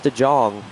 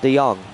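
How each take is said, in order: First: The middle consonant is an English J sound. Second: The middle consonant is an English Y sound. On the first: The speaker calls it wrong. "Keep on saying DeJong because of the J" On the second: The speaker calls it right. "but it's DeYoung"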